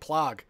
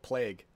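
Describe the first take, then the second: First: The vowel sounds like 'plog'. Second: The vowel sounds like standard 'plague'. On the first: The speaker calls it wrong. "You're saying plog" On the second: The speaker calls it right. "instead of plague"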